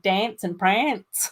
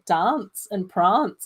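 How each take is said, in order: First: The vowels are said in an Australian way. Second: The vowels are said in an English way. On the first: This is how classmates usually said it. "instead of" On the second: This is the proper way a parent taught. "I would be saying things like"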